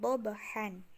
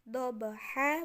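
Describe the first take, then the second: First: The word ends with an n sound. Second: The word ends on a long vowel, no n. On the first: The speaker calls it wrong. "bukan dobahan" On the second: The speaker calls it right. "Jadi kayak tadi dobaha"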